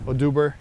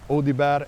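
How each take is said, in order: First: The name is said with an English pronunciation. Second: The name is said with a French pronunciation. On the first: "as most will say in uh, how do you call it in uh, in English" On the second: "they pronounced it perfectly in, in France"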